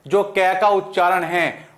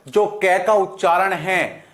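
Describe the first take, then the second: No difference in how they are said.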